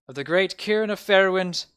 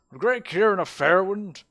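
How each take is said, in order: First: Loud, raised proclamation, character voice not quite there; mayor's voice slipping. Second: Loud, high put-on orator; mayor's voice regained. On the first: Acted. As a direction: proclaim it before the voice is found. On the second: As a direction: proclaim the name in a grand mayoral voice. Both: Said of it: "I forgot his voice".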